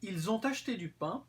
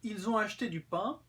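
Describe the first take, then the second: First: A t sound links ont to acheté. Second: The t of ont is not pronounced. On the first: This is much more formal speech. "avec la liaison, c'est beaucoup plus formel" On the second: This is ordinary, standard speech. "c'est une façon de parler normale, standard"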